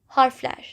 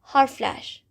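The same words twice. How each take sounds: The two takes are said the same way.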